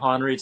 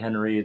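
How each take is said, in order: First: The first vowel sounds like 'hon'. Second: The first vowel sounds like 'hen'. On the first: "Sometimes I do Honreid" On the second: "sometimes I say Henreid"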